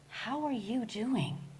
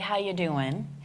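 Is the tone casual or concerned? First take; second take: concerned; casual. First: It is said with real curiosity and concern. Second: It is said as a casual, friendly greeting.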